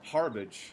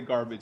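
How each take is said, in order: First: The word begins with a breathy H sound. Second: The word begins with a hard G sound. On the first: "He says harbage" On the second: "he doesn't even say garbage"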